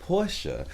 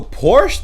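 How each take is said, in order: First: The word ends with a short e vowel. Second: The word ends on the sh consonant. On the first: The speaker calls it right. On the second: The speaker calls it wrong.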